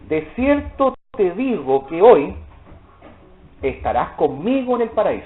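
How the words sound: There is a pause right after hoy. He is told today that he will be in paradise later.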